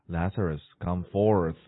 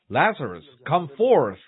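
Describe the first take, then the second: First: It is spoken quietly, in a low voice. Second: It is spoken loudly, in a strong voice. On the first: It is only an ordinary call. The speaker calls it wrong. "in a low voice" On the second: It is a commanding call that summons the dead. The speaker calls it right. "it was a loud voice"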